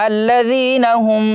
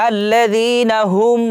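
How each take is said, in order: The two takes are said the same way.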